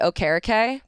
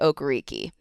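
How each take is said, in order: First: The name is said with traditional Nigerian pronunciation. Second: The name is said without Nigerian pronunciation. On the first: The speaker calls it right. "traditional Nigerian pronunciation" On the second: The speaker calls it wrong. "it is not pronounced"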